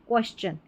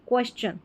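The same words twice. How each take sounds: The two takes are said the same way.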